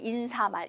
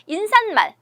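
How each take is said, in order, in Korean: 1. 'mal' 앞에 ㄴ 소리가 더 들어가지 않습니다. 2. 'mal' 앞에 ㄴ 소리가 더 들어갑니다. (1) "여기서 맞는 발음은 바로 인사말이에요" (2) "니은 첨가해서 발음하는 것 같아. ... 틀린 발음"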